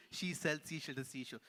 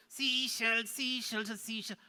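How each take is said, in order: First: Said in the usual way. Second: Higher-pitched puppet voice; puppet recital. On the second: Pretend. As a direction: parrot the tongue twister as the puppet. Puppet repeats tongue twister.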